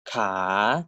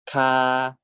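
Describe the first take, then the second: First: Ka dipping low then rising at the end; Thai rising tone. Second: Ka held level on a steady mid pitch; Thai mid tone. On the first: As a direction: start Ka low, dip, then swing it up. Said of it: "they occupy the other end of the spectrum". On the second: Teacher models the mid tone of ka for students, level pitch. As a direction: say ka flat and even, no rise. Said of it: "default tone is the first one of the spectrum". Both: Shown as a demonstration.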